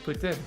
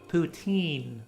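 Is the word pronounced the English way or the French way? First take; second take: French; English. First: The word has a French-style pronunciation. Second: The word has an English-style pronunciation. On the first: "in the Canadian French way" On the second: "People would typically call it"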